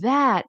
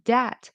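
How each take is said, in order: First: It begins with a soft th sound. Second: It begins with a hard d sound. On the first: The speaker calls it right. "You're able to say this and that" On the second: The speaker calls it wrong. "somehow you go back to using sounds from your own language"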